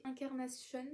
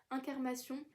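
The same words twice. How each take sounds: First: French title slipped into an English accent. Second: Said in the usual way. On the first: Real, not acted. Book vlogger naming a title, accidental English accent. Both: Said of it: "l'accent anglais".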